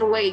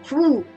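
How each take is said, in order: First: It is read with Indonesian letter sounds. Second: It is said with a single French vowel. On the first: The speaker calls it wrong. "kalau kita baca tulisannya dalam bahasa Indonesia kan rue" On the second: The speaker calls it right. "dalam bahasa Prancis dilafalkan ru"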